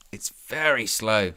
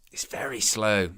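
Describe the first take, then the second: First: Said in the usual way. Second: Slow, breathless whisper of frustration. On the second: Real, not acted. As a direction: mutter it under your breath, slowly.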